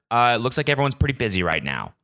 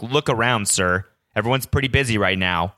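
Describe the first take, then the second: First: Said in the usual way. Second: Lightly voiced patronizing employee saying "Look around, sir."; a hint of talking down, as if "busy" were obvious; obviously condescending. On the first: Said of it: "And she was like". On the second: Employee telling the customer to look around, mildly condescending. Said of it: "she said it like it was, like, an obvious".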